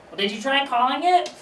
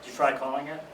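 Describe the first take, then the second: First: High, rising grandma voice; imitated grandmother. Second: Deadpan echo. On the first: Grandmother advising aunt about a lost pen, high imitated voice. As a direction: pitch the question way up, lilting to the end. Grandma's absurd suggestion, acted out. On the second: Retold or imitated. Grandson echoing grandmother's own advice, soft deadpan. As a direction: hand it back drily, pitched down. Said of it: "So I do the".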